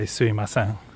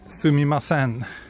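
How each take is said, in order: First: The word is said in a shortened, reduced form. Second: Every syllable of the word is said in full. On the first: This is a lazy, casual form. "people are a little bit lazy and just say" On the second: This is the proper form. "is the proper way of saying it"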